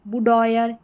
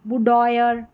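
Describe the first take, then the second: Both takes have the same delivery.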